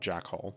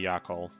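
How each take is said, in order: First: The name begins with a J sound. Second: The name begins with a Y sound. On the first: "The town is called Jackhole" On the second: "it could be Yakhole"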